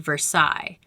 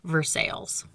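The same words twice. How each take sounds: First: The name is given its French pronunciation. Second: The name is given a local Pittsburgh pronunciation. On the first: It names the city in France. "the French city Versailles" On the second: It names the local township. "in Pittsburghese, we pronounce it Versailles"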